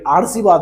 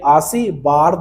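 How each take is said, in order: First: The r sound comes after the first syllable. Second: The r sound comes after the third syllable. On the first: "आर सी बाद ये गलत है मेरे दोस्त" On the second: "तो ये भी गलत हो जाएगा"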